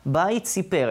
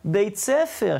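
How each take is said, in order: First: The second word is pronounced 'sipar'. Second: The second word is pronounced 'sefer'. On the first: It makes no sense as a phrase. The speaker calls it wrong. "אין דבר כזה" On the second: It means school. The speaker calls it right. "ההיגיון הוא יותר להגיד"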